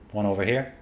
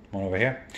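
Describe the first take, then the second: No difference in how they are said.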